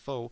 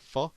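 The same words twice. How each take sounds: First: The word is read the way its spelling suggests. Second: The word is said the way Vietnamese speakers say it. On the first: The speaker calls it wrong. "which you would think is pho" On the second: The speaker calls it right. "but they pronounce it pho"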